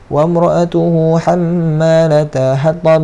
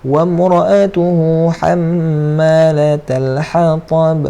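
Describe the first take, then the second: First: The l sound in the middle is blurred. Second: The l sound in the middle is clear. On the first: The speaker calls it wrong. "jangan baca" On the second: The speaker calls it right. "macam tu"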